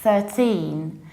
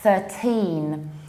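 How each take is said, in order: First: The stress is on the second syllable. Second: The stress is on the second syllable.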